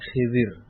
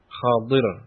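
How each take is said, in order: First: The middle consonant is a zal sound. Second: The middle consonant is the emphatic dhad sound. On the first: The speaker calls it wrong. "sebagian dari mereka menyebut Khidir, pakai zal" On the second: The speaker calls it right. "pakai kha, dan kha-nya di fathah. Kemudian setelah kha huruf dhad"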